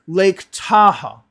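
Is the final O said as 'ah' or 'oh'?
ah. The final O is said like 'ah'. The speaker calls it wrong. "They'll say it like that"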